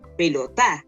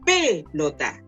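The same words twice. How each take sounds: First: The stress is on the last syllable. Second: The stress is on the first syllable. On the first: "Y si fuera en la última sería" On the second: "Si fuera en la, en la antepenúltima diría"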